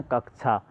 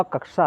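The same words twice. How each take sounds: First: कक्षा said as "kakchha" with an aspirated chh; common pronunciation. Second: कक्षा said as "kaksha" with a clear ks in the middle; correct pronunciation. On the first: Teacher showing how students usually say कक्षा. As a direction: let कक्षा slide to kak-chha, the everyday way. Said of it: "हम इसको लेकिन क्या बोलते हैं?". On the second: Teacher showing the pure pronunciation of कक्षा. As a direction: say कक्षा with a crisp k-sh cluster, no chh. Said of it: "शुद्ध उच्चारण जो होगा कक्षा होगा". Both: Shown as a demonstration.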